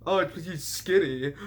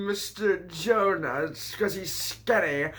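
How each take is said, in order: First: Said in the usual way. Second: Drawn-out teasing, slowed right down; slow mocking repeat. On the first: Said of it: "it's 'cause he's skinny". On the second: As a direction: spell it out slowly to mock. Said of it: "Oh, it's 'cause he's skinny".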